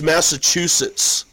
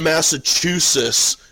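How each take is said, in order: First: The t sounds before the s are pronounced. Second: The t sounds before the s are dropped. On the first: The speaker calls it right. "there are two fucking T's before the S's" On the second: The speaker calls it wrong. "it's also not Massachusetts"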